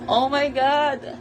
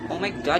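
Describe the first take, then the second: First: It is said with a happy tone. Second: It is said with an angry tone. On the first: Something good has happened. "So one is the happiness" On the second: Someone is being annoying. "the anger"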